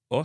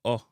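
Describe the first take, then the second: First: "O" as an English "aw"; short O sound. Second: "O" as a hard, short "oh"; hard Jamaican O. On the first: Teacher naming the English sound, short "aw" for "O". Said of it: "if it make a short O sound". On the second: Teacher naming the Jamaican sound, hard "O". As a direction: make the O hard and pure. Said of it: "replaced with a hard". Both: Shown as a demonstration.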